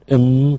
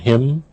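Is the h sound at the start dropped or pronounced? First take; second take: dropped; pronounced. First: The h sound at the start is dropped. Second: The h sound at the start is pronounced.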